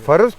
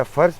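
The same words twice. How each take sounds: First: فرض as two syllables, faroz; Hindko pronunciation. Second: فرض as one syllable, farz; Urdu pronunciation. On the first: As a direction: put an o between r and z in فرض. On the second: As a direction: say فرض with r straight into z. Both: Shown as a demonstration. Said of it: "یا فرض ٹھیک ہوندا ہے".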